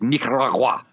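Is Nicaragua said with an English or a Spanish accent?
Spanish. It is said with an exaggerated Spanish pronunciation. The speaker would sound pretentious. The speaker calls it wrong. "I don't need to be like Nicaragua. ... I don't need to overpronunciate it"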